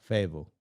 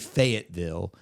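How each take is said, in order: First: The middle t sound is dropped, like fayd-vul. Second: The middle t sound is clearly pronounced. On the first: This is how local people actually say it. "most people say it's almost like F A Y D V U L" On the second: This is the formal, textbook pronunciation. "technically it should be Fayetteville"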